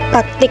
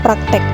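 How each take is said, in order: First: The last syllable has an 'i' vowel. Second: The last syllable has an 'e' vowel. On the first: The speaker calls it right. "Bahasa yang benarnya praktik" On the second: The speaker calls it wrong. "bukan praktek"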